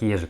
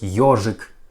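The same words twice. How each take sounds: First: The first vowel sounds like ye. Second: The first vowel sounds like yo. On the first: The speaker calls it wrong. "We don't pronounce like ежик" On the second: The speaker calls it right. "We pronounce like ежик"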